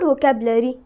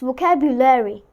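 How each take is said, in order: First: The middle 'u' vowel is dropped. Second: The middle 'u' vowel is clearly pronounced. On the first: The speaker calls it wrong. "It's not vocabulary" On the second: The speaker calls it right. "U is there. U is something that is existing. So we will pronounce U"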